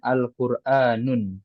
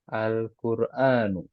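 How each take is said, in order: First: The word ends with an added n sound. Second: The word ends on a short vowel, no n. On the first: The speaker calls it wrong. "Ini nggak boleh tanwin" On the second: The speaker calls it right. "kenapa kita bacanya Al-Qur'anu bukan Al-Qur'anun saja?"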